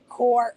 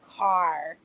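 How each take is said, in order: First: The vowel is rounded, sounding like 'core'. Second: The vowel is open, sounding like 'car'. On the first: "I will say core" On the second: "It was hard"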